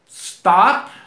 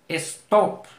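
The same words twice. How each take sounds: First: The word starts directly with the s sound. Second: An e vowel is added before the s sound. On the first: The speaker calls it right. "si digo uh, stop" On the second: The speaker calls it wrong. "tendía yo a decir stop"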